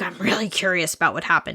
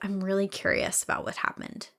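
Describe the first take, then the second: First: It sounds grumpy and angry. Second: It sounds gentle and genuinely curious.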